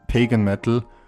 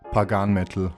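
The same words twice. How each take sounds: First: It is pronounced the usual way. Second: It is pronounced in an imitated, idiosyncratic way.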